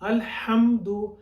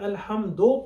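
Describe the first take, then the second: First: The word ends with a 'u' vowel. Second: The word ends with an 'o' vowel. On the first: The speaker calls it right. "दाल पेश दू होता है" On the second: The speaker calls it wrong. "गलत है"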